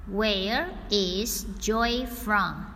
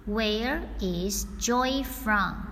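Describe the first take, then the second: No difference in how they are said.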